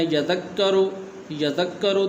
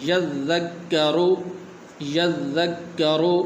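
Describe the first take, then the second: First: یذکرو said with no held ذ; يذكرو said lightly, the doubling dropped; wrong pronunciation. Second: یذکرو very slow with the doubled ذ and ک held; correct pronunciation. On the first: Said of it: "غلط لوگ اس طرح پڑھتے ہیں". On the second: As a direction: stretch یذکرو, holding both doubled letters. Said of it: "صحیح طریقے سے اس طرح پڑھیں گے". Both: Shown as a demonstration.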